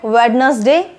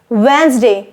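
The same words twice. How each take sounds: First: A d sound is heard in the middle. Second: No d sound is heard in the middle. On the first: The speaker calls it wrong. "Do you call it Wednesday? No" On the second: The speaker calls it right. "the right way to pronounce it is Wednesday. Drop letter D"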